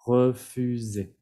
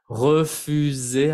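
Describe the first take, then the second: First: "Refusé" said slowly, s voiced as z, falling at the end; slow teaching demo of "Refusé" with z, falling; refusé with a z sound. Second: "Refusé" said slowly, the single s voiced as z, rising at the end; slow teaching demo of "Refusé" with z, rising; refusé with a z sound. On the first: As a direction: model "Refusé" once more with a z, slowly, voice settling down. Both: Shown as a demonstration. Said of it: "entonces se pronuncia Z".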